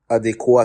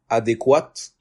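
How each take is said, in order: First: The final t sound is silent. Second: The final t sound is pronounced. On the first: This form is for the masculine. The speaker calls it right. "adéquat, c'est lorsque c'est au masculin" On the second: This ending is for the feminine form. The speaker calls it wrong. "Je disais avant adéquate"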